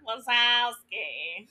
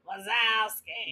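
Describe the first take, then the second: First: Roz's voice, only slightly gravelly. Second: Roz's voice, noticeably more gravelly.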